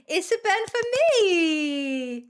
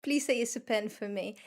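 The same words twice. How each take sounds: First: "It's a pen for me!" said slowly, higher and louder, stretched out; a playful put-on "It's a pen for me!", slow and raised; slow drawn-out performed line. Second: Said in the usual way.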